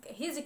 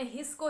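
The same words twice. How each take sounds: First: "his" turned into "hij"; wrong "his", said as "hij"; mispronounced "his". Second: "his" with final s sound; plain, correct ending on "his". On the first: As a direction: end "his" on a j sound. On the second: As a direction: say "his" as it should be. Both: Shown as a demonstration. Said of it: "हिज कहने लगे".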